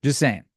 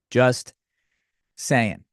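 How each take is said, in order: First: Said in the usual way. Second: "Just", long pause, then "saying"; deliberate pause. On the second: Real, not acted. Defending the joke to viewers, "Just ... saying" with a pause. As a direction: split "Just saying" into two separate, spaced-out words.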